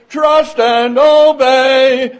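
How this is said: It is said with lively enthusiasm. The singer truly means the words. The speaker calls it right. "We don't sing it with enthusiasm. We don't say"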